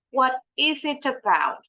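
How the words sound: The middle T is a clear T sound. "Kalau pakai British English"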